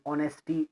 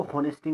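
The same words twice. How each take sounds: First: ऑनेस्टी starting on the vowel, no H; ऑनेस्टी with no breath of H before the O; silent H. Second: हॉनेस्टी with the H sounded at the start; mispronounced silent H. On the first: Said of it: "silent जैसे होता है ना". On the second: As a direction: say हॉनेस्टी, voicing the H before the O. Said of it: "इसको हॉनेस्टी नहीं पढ़ना है". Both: Shown as a demonstration.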